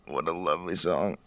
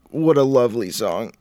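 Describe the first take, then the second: First: Soft, lowered put-on voice; put-on low echo. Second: Higher, put-on voice for mock admiration. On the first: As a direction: echo the praise quietly, down low. Echoes own praise in lower voice. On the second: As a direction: gush over the song in an affected voice. Theatrical praise of the chosen song.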